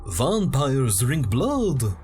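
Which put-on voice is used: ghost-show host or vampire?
vampire. It is read in a put-on vampire voice. "I'm going to read this like a vampire would"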